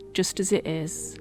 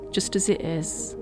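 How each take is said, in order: Both takes have the same delivery.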